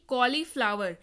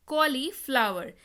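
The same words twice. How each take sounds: First: Said in the usual way. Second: cauliflower slowly, as कॉली, flower; slow, measured repeat. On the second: Shown as a demonstration. Teacher repeats the new word for learners, cauliflower slowly in parts. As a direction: stretch cauliflower out in two clear parts.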